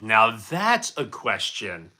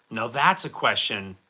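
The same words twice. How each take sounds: First: Slow, drawn-out mock-grand delivery; stretched-out showman take on now that's a question; mock announcer. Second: Said in the usual way. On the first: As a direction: savour it like a game show host. Mock-grand reply to a cheeky chat question.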